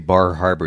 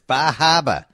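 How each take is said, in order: First: It is said in a general American accent. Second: It is said in a local Maine accent.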